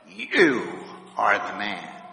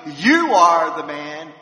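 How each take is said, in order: First: It is said in a serious, accusing way. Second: It is said in a celebratory, cheering way.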